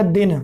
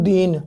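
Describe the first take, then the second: First: "दिन" with a short i; short vowel. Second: "दीन" with a long ee; stressed long vowel. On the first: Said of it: "यहाँ पर लघु ई की मात्रा थी". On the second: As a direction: lean on a drawn-out ee in "दीन". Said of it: "दी में आपने दबाव दिया". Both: Shown as a demonstration.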